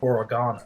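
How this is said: The word has a British pronunciation. "while the British say oregano"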